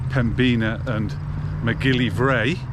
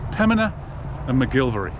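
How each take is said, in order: First: The names are said fully, following their spelling. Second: The names are said shortened, dropping some sounds. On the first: The speaker calls it wrong. "you'll be forgiven for pronouncing it Pembina and McGillivray based on how they are spelt" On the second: The speaker calls it right. "So it's Pemina and McGilvery"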